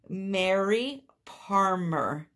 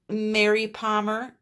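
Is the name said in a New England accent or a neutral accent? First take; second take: neutral; New England. First: It is said carefully without the regional accent. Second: It is said quickly with a New England accent. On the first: The speaker calls it right. "So let me say Mary Palmer" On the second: The speaker calls it wrong. "I think my uh, New England accent kicked in there"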